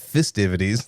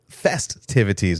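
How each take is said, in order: First: The word is pronounced sloppily and slurred. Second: The word is pronounced clearly and carefully. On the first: The speaker calls it wrong. "not festivities" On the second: The speaker calls it right. "enunciate festivities"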